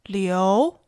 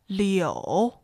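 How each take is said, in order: First: The pitch rises from mid to high. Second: The pitch dips low, then rises.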